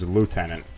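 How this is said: The first syllable sounds like 'loo'. This is the American way of saying it. "in America it's lieutenant with a Lou"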